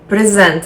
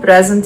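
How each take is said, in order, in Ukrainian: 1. Наголос на другому складі. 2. Наголос на першому складі. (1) "дієслово" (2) "іменник"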